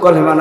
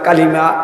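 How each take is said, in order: First: The first vowel sounds like 'o'. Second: The first vowel sounds like 'a'. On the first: The speaker calls it wrong. "আজীবন শুনছে কলেমা, কিন্তু কলেমা না" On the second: The speaker calls it right. "না কালিমা"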